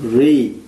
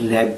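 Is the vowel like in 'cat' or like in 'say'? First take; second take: say; cat. First: The vowel sounds like say. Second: The vowel sounds like cat.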